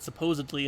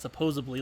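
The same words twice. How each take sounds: First: The word is said with a D sound. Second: The word is said with a B sound. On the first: The speaker calls it right. "the correct pronunciation of the word supposedly" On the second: The speaker calls it wrong. "not supposedly like you do"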